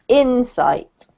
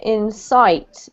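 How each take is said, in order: First: The stress is on the first syllable. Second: The stress is on the second syllable. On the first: The speaker calls it right. "the emphasis on the first syllable" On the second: The speaker calls it wrong. "you just put the emphasis on the wrong syllable"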